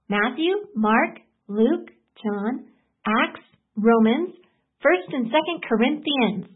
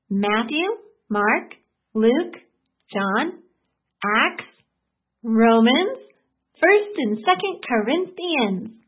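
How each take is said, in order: First: The list is said a little faster. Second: The list is said at normal speed.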